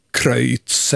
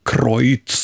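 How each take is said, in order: First: Kreutz with an öj diphthong; Swedish pronunciation. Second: Kreutz with an oy diphthong; German pronunciation. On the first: Host weighing two ways of saying it, Kreutz with Swedish öj. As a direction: say Kreutz as "Kröjts". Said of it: "säga det med öj". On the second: Host weighing the German option, Kreutz with German oy. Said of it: "säga det på tyska". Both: Shown as a demonstration.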